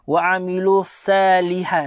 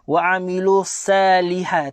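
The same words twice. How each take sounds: First: The s sound is light and thin. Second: The s sound is light and thin.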